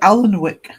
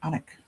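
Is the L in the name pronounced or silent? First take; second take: pronounced; silent. First: The L sound in the name is pronounced. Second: The L sound in the name is silent. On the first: The speaker calls it wrong. "Number of people who say" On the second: The speaker calls it right. "you don't say the the L"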